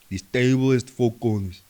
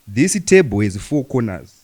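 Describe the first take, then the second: First: Words are mumbled and run together less distinctly. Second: Words are pronounced boldly, clearly and strongly. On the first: "let me try and think their accent" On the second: "our English is so bold, detailed, and strong"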